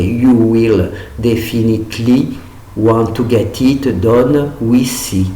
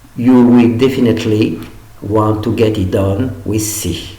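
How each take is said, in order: First: It is said with a French pronunciation. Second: It is said with an English pronunciation. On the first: The speaker calls it wrong. "en franchissant, ça ferait" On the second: The speaker calls it right. "elle devrait être lue"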